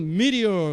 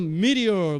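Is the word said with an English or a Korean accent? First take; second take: English; English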